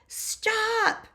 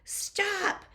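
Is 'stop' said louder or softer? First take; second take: louder; softer. First: The word is said very loudly and forcefully. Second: The word is said at a moderate loudness. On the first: "Strongest voice ever" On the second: "Say it with me"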